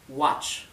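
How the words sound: American accent with a vowel leaning toward A. "En inglés americano sería más bien watch"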